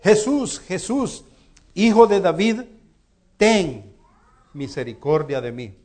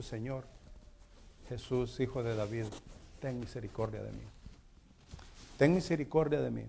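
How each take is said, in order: First: Shouting out. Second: Much softer, lower, pleading prayer; quiet plea. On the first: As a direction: call out desperately to be heard over the crowd. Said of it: "él empieza a gritar". (grito fuerte y agudo pidiendo misericordia) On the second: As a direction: murmur it like a private prayer for mercy. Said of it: "yo he dicho". (súplica suave y baja, como oración íntima) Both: Retold or imitated.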